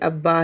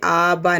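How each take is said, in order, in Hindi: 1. पहला स्वर दोहरे b के साथ छोटा होता है। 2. पहला स्वर एक b के साथ लंबा होता है। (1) "बल्कि अब्बा ही पढ़ेंगे" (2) "अब्बा से आबा ना हो जाए"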